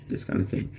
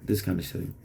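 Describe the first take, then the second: First: Breathy voiceless whisper of the aside; whispered repeat. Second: Said in the usual way. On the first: Shown as a demonstration. Repeating his throwaway line to viewers, in a whisper.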